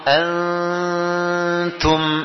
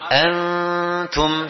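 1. Dengung sengau sebelum t dipanjangkan. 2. Dengung sengau sebelum t singkat. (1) "Ini kepanjangan, ya. Ini sekedar melatih aja" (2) "Yang sebenarnya cuma antum, segitu aja panjangnya"

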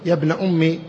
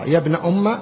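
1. تنتهي العبارة بكسرة قصيرة. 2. تنتهي العبارة بفتحة قصيرة. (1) "بالكسر" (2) "بالفتح"

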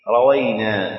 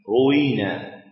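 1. تبدأ بـ a وفيها w واحدة. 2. تبدأ بـ u وفيها w واحدة. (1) "فتح الراء والواو بلا تشديد" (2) "بضم الراء وكسر الواو بلا تشديد"

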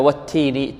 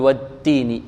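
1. تُنطق التاء مع نفس مسموع. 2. تُنطق التاء بدون نفس مسموع. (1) "نقول هكذا والتين تي تي" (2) "ولا نقول والتين"

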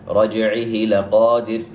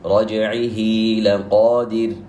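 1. الحركة بعد الضمير تبقى قصيرة. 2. الحركة بعد الضمير ممدودة. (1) "ولا أقول رجعه لقادر، خطأ" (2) "بل تمد"

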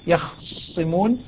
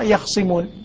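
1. الخاء ساكنة قبل سين مشددة. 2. الخاء ساكنة قبل سين مفردة. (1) "هو إسكان الخاء" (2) "حمزة يسكن الخاء ويخفف الصاء"

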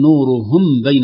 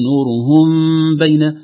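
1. تُنطق الميم كاملةً وواضحة. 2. الميم مخفاة بتلطيف الشفتين والغنة. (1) "لا نقول نورهم بين هكذا بالإظهار" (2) "بإطباق اللطيف للشفتين وغنة مقدار حركتين"

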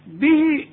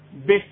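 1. تُمَدّ الحركة الأخيرة إلى حركتين. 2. تنتهي الكلمة قصيرة بدون مد. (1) "به اذا وصلت" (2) "انما اذا وقفت بدون مد"

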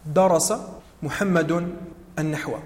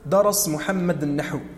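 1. كل كلمة تحتفظ بحركة آخرها. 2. كل كلمة تُسقط حركة آخرها. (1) "لا تقل" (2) "سكنوا كل الكلمات"

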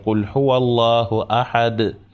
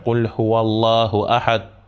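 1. Конечное d произносится с дрожащим эхом. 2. Конечное d обрывается коротко, без эха. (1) "мы говорим ... Д. Сотрясаем звук" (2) "Мы не читаем"

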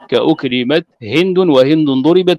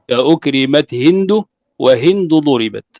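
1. تُنطق هند مع صوت النون في آخرها. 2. تُنطق هند بدون صوت النون في آخرها. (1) "أو بتنوين هند وهند" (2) "أن تقول"

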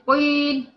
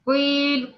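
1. الحرف الأول مفخم بقوة وثقيل. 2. الحرف الأول مفخم بقوة وثقيل.

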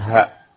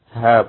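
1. Vokalnya dibaca pendek. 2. Vokalnya dibaca panjang. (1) "bukan ha" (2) "hanya panjang ya, sehingga dikatakan ha"

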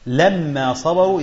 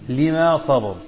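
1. الميم مشددة بعد الفتحة. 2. الميم مفردة بعد الكسرة. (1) "يعني حين صبروا" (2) "تخفيف الميم وكسر اللام"

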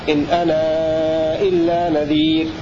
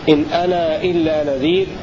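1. حركة 'ana' تُمد أربع حركات. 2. حركة 'ana' تُمد حركتين. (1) "والتوسط" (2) "هذا بمقدار حركتين"

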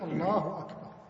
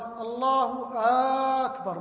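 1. لا يُمَدُّ أي حرف علّة أكثر من طوله الطبيعي. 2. حرف a الأول من الكلمة الثانية ممدود. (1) "إنما يقول الله أكبر" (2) "مد الهمزة في أكبر"

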